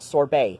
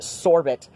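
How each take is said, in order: First: The word is given a French-style pronunciation. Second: The word is given a non-French pronunciation. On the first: The speaker calls it wrong. "not sorbet" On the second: The speaker calls it right. "because it's a loan word from Arabic, not French"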